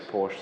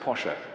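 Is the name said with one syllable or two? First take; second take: one; two. First: The name is said with one syllable. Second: The name is said with two syllables. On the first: This is the common pronunciation. "but everybody says Porsche" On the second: This is the proper pronunciation. "you pronounce it Porsche"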